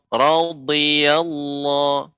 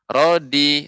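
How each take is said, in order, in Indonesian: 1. Konsonan tengah adalah bunyi dh emfatik. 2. Konsonan tengah adalah bunyi d biasa. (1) "radhiyallahu radhiyallahu bukan rodi" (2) "kalau huruf dal rodi"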